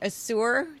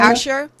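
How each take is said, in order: First: The middle consonant is a 'zh' sound. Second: The middle consonant is a 'sh' sound.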